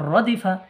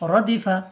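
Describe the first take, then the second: Both takes have the same delivery.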